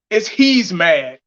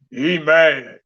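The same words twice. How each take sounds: First: Emphatic "he's" with the s sounded; corrected grammar. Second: Low, mocking "He mad"; mocked bad grammar. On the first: Vlogger correcting a commenter, emphatic "he's mad". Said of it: "make sure you're using correct grammar". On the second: Vlogger quoting commenter's grammar, mocking "He mad". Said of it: "You ain't even saying it right". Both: Shown as a demonstration.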